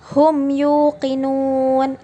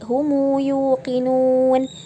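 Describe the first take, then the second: First: The m is closed with no following vowel. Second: The m is followed by an added u vowel. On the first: "yang membaca hum yuqinun itu dibaca dengan cara sukunnya" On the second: "apabila kita ingin membacanya dengan shilah menjadi humu yuqinun"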